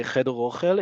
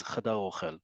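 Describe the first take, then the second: First: Cheder ochel with e vowels in "cheder"; uncompounded form. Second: Chadar ochel with a vowels in "chadar"; compound form. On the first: Teacher showing learners what we don't say, uncompounded "cheder ochel". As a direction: say "cheder" unchanged before "ochel", as CHE-der. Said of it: "We don't say". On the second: Teacher correcting to the dining room compound, changed form "chadar ochel". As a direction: say "chadar" as cha-DAR, leading into "ochel". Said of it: "We don't say cheder ochel". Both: Shown as a demonstration.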